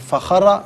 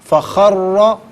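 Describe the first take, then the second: First: The r sound is short and single. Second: The r sound is held and doubled. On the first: The speaker calls it wrong. "नहीं" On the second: The speaker calls it right. "चूंकि मुशद्दद है तो जमाओं के साथ पढ़ेंगे"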